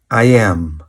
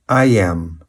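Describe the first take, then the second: First: Two separate full words are pronounced. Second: The same.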